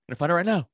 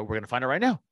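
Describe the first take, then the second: First: Higher, louder repeat; raised insistence. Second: Said in the usual way. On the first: Retold or imitated. To his buddy in the car, repeating it louder. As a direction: push it up the second time.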